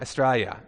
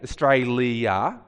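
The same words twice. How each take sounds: First: The ending is squeezed into a quick 'ya' sound. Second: The ending is said fully as separate 'li-a' syllables. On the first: This is how Australians say it. "when Australians say Australia" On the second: This is how Australians do not say it. "we don't say Australia. We turn the L-I-A into a ya"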